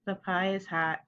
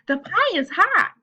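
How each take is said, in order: First: Said in the usual way. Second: High, loud, excited exclamation; louder, more expression. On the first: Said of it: "me saying, "The pie is hot," compared to". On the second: Shown as a demonstration. Teacher contrasting with a plain reading, loud excited expression. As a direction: exclaim it slowly with lots of feeling. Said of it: "saying it with more expression. I'm saying a little bit louder".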